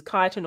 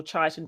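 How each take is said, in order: First: "chitin" begun with a hard K sound; hard K pronunciation. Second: "chitin" begun with CH as in chair; "chitin" with ch said as in child; soft CH pronunciation. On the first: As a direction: say "chitin" as KY-tin. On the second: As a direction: say "chitin" as CHY-tin. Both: Shown as a demonstration. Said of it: "however you want to pronounce it".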